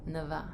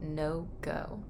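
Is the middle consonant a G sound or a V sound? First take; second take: V sound; G sound. First: The middle consonant is a V sound. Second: The middle consonant is a hard G sound.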